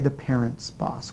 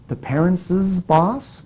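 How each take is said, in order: First: No extra syllable follows 'parents'. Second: An extra 's' syllable follows 'parents'. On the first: The speaker calls it right. "We say the parents' boss. We don't hear the extra zus" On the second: The speaker calls it wrong. "where we hear the extra S"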